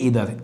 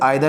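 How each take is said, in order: First: The word begins with an 'ee' sound. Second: The word begins with an 'eye' sound. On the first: The speaker calls it right. "इसे बोलते ईदर" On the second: The speaker calls it wrong. "इसे आइदर नहीं बोलते"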